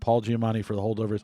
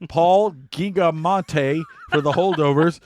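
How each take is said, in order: First: The surname is said as Giamatti. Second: The surname is mangled into Gigamonte. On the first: It is read seriously. The speaker calls it right. "I'll read it right this time" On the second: It is a joke on purpose. The speaker calls it wrong. "You're gonna mispronounce him on purpose"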